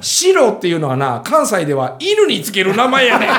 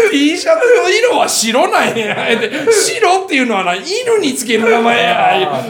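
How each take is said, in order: First: Said in the usual way. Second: Slow, high, loud triumphant jab on 白; punchline retort. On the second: Retold or imitated. Kansai woman schooling the clerk, slow triumphant punchline. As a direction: lean into 白 and 犬, savoring the comeback. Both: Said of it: "言うて最後かましたったんや".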